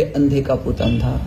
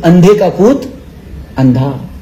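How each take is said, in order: First: Quieter, lower, slow recalled taunt; bitter remembering. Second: Lower, laughing taunt; mocking laugh. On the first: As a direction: let the insult echo bitterly in memory. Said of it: "दुर्योधनाला शब्द आठवले". (दुर्योधनाला आठवलेला टोमणा, हळू आणि खालच्या आवाजात) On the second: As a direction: jeer with a laugh as Draupadi. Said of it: "Draupadi हसली". (हसत टोमणा मारणारी Draupadi) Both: A narrator's reading.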